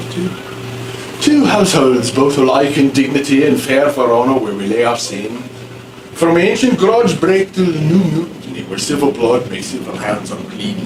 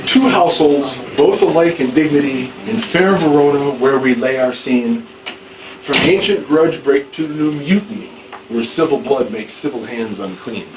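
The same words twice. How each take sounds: First: Put-on old Elizabethan English accent, sounding a bit Irish; a rough try at an Elizabethan English accent. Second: Plain formal recitation of verse; recited verse. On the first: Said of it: "That's what it sounds like, sort of". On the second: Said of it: "not the way I just did". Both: Shown as a demonstration.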